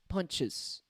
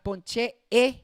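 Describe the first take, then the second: First: The ending has a weak schwa vowel. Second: The ending has a full, clear 'eh' vowel. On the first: The speaker calls it right. "You add that schwa sound" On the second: The speaker calls it wrong. "it's not ponche e, it's not e"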